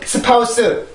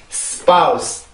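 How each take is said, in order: First: The word is said as four separate syllables. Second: The word is said as one quick syllable. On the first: The speaker calls it wrong. "절대 스파우스, 우리나라는 성대가 네 번을 울려야 되는 소리" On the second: The speaker calls it right. "영어는 한 번만 울리면 되는 소리"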